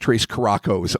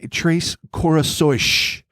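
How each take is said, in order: First: The second word sounds like 'caracos'. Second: The second word sounds like 'corações'. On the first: The speaker calls it wrong. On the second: The speaker calls it right.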